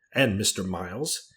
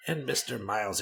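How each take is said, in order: First: Slow "And Mister Miles?", rising on Miles; pointed question. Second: "And Mister Miles" falling at the end; grudging concession. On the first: Wife challenging the rector, pointed question. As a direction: ask "And Mister Miles?" with the voice lifting at the end. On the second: Rector conceding to his wife, grudging concession. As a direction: hand back "And Mister Miles" as a statement, dropping on Miles. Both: Acted.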